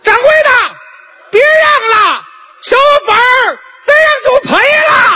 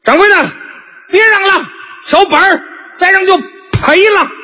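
First: It is said at a very high pitch. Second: It is said at a fairly low pitch.

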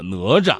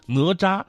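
First: The second syllable is light and unstressed. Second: The second syllable has a high level tone. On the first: "更习惯用这个轻声的用法了" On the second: "标准的医生哪吒"

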